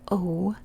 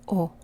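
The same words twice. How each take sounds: First: The O vowel is drawn out, English-style. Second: The O vowel is short and abrupt. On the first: The speaker calls it wrong. "in English we say O" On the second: The speaker calls it right. "but this is O"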